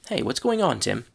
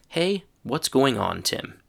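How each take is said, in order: First: It is said at a natural, relaxed pace. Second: It is said slowly and carefully.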